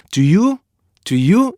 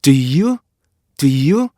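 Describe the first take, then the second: First: "Do you" as plain "doo-yoo"; Korean-style reading. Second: "Do you" short then long, "dih-ee-yoo"; native rhythm. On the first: Teacher showing the rhythm gone missing, unlinked. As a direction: say "Do you" in two even vowels, no stop. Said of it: "이렇게 된단 말이에요". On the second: Teacher modelling the rhythm needed, linked stop. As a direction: glide from a brief "Do" into drawn "you". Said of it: "이런 리듬감이 돼야 되는데". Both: Shown as a demonstration.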